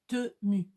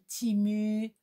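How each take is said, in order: First: The first vowel sounds like 'eh'. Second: The first vowel sounds like 'ee'. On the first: This is how the speaker says it. "Moi, c'est Temu" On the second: This is how some other people say it. "il y en a, ils prononcent"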